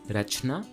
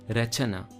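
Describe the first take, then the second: First: There is no vowel between ch and n. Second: An 'a' vowel comes between ch and n. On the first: This is the Hindi form. "Hindi does not" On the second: This is the Sanskrit form. "Sanskrit adds an a sound"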